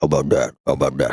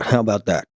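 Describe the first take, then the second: First: Low Jersey mob boss voice; Tony Soprano impression. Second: A hint of the mobster voice, close to own; tossed-off mobster line, barely voiced; mild Jersey mob boss; light Soprano impression. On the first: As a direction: do it like a gruff Jersey mobster. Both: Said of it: "I've genuinely been saying that".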